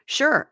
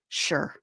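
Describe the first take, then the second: First: High-pitched, forced-eager "sure!"; mock enthusiasm. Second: A mock reluctant, lifeless "sure"; unenthusiastic reply. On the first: Co-host grudgingly obeying a demand for enthusiasm, mock-excited. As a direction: chirp it like a token exclamation point. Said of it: "Exclamation point". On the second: Imitating the co-host's grudging text reply, unenthusiastic. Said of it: "I need enthusiasm".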